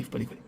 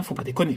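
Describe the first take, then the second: First: Muttered under breath. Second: Said in the usual way. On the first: Real, not acted. Scratching a losing ticket, he pleads to himself under his breath. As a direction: say it again almost silently, trailing off. Repeats plea, fading away.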